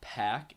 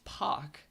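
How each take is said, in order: First: The vowel sounds like the one in 'cat'. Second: The vowel sounds like the one in 'cot'. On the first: The speaker calls it wrong. "everybody's pron- been pronouncing it wrong" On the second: The speaker calls it right. "That's how it's pronounced"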